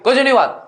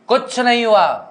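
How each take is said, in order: First: It is roared loudly and forcefully. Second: It is said at a calm, normal volume. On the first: "लेकिन वो हमेशा दहाड़ के" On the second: "normal बोला भी जा सकता है"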